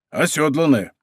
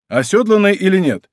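First: Said in the usual way. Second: ОСЁДЛАННАЯ pitched high and loud, then dropping; questioning. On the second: A narrator's reading. Rider asking about fallen horse, ОСЁДЛАННАЯ raised questioningly.

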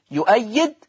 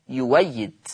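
First: يؤيد with a glottal stop before the second syllable; hamza kept. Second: يويد with a w glide in place of the hamza; hamza turned waw. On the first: Teacher gives the example before substitution, يؤيد with its hamza. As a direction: sound the hamza clearly in يؤيد. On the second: Teacher shows Warsh's substitution, يويد with a w sound. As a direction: say يويد smoothly as yu-way-yid. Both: Shown as a demonstration. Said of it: "تبدل واو مفتوحة".

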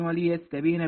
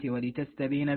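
First: وليستبين with a "y" after the lam; read with ya. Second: ولتستبين with a "t" after the lam; read with ta. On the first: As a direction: say وليستبين as "wa-li-yastabina". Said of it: "بالياء". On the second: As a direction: say ولتستبين as "wa-li-tastabina". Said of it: "بالتاء". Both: Shown as a demonstration.

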